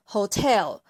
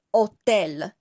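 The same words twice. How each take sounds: First: "hotel" said the English way, with an audible h at the start; English pronunciation. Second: "hotel" said the Italian way, silent h: o-TEL; Italian pronunciation. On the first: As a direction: say "hotel" as in English: ho-TEL, breathy h first. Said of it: "它本身的发音是hotel". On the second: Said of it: "用意大利人的发音来读". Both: Shown as a demonstration.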